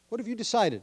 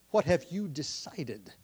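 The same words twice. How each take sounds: First: Higher pressing question. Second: Slow, deliberate question. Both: Shown as a demonstration. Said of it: "That's how I worded it".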